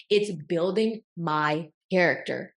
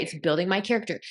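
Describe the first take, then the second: First: Slow, word-by-word "It's building my character"; emphatic repeat. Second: Said in the usual way. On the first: Real, not acted. Affirming her growth to herself, "building my character" slowly spelled out.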